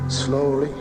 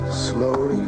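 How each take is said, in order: Both takes have the same delivery.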